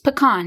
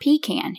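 First: The word does not sound like 'pee can'. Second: The word sounds like 'pee can'. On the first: The speaker calls it right. "It's pecan" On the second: The speaker calls it wrong. "It's a can that has peas in it"

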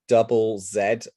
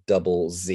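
First: The letter is said the British way, 'zed'. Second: The letter is said the American way, 'zee'.

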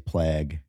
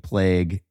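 First: The vowel is not a long A sound. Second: The vowel is a long A sound. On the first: This is how the co-host says it. "you say plague" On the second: This is how most people say it. "we use the long A"

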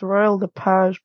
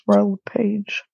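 First: Lepage is said with a French pronunciation. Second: Lepage is said with an English pronunciation. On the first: This is how people in Quebec say it. "If you're in Quebec" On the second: This is how people outside Quebec say it. "But if you're elsewhere"

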